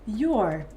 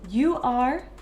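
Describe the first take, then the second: First: The two words merge into one short syllable. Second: The two words are said separately in full.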